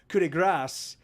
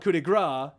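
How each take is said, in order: First: It is pronounced the French way. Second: It is pronounced the American English way. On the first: "it's actually pronounced in French is pronounced coup de grace" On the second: "in American English we call it coup de grace"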